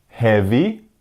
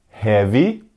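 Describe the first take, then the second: No difference in how they are said.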